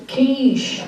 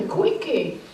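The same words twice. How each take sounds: First: "quiche" said as KEESH, one syllable, slowly; correct pronunciation. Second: "quickie" said as KWIK-ee, two syllables, for the dish; quickie, mispronounced. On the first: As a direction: correct him with a slow, deliberate "quiche". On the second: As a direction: say "quickie" as if ordering food. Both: Acted. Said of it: "It's pronounced quiche".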